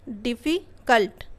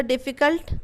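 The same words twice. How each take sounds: First: difficult slowly, split as डिफ़ि, pause, cult; broken into syllables. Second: Said in the usual way. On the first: Shown as a demonstration. Teacher breaking the word to check syllables, डिफ़ि and cult apart. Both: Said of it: "word को तोड़ के देख लेना".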